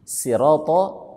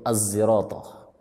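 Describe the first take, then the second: First: It begins with a plain s sound. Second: It begins with an s blended toward z. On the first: "ada yang membaca dengan huruf sin" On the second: "dengan ismam"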